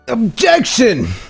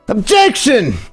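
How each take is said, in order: First: It is said tentatively, without much conviction. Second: It is said forcefully, with strong conviction.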